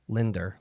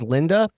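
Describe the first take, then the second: First: The name ends with an added r sound. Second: The name ends in a plain vowel. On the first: "all my aunts and uncles would call her Linder" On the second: "my mom's name was Linda"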